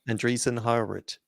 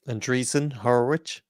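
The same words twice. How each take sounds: First: It is said at a fast pace. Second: It is said at a slower pace.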